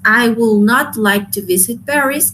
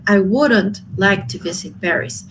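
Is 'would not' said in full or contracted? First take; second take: full; contracted. First: Would and not are said as two words. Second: Would and not merge into one word.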